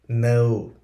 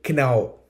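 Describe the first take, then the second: First: The word begins with an N sound. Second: The word begins with a K sound. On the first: The speaker calls it right. "We say no" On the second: The speaker calls it wrong. "We don't pronounce K. We don't say know"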